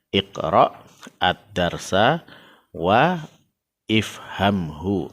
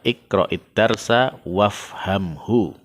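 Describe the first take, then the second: First: Each word is read separately with its initial glottal stop. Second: The words run together, dropping the initial glottal stops. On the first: "kalau dibaca terpisah-pisah" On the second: "kalau kita membaca dengan nyambung"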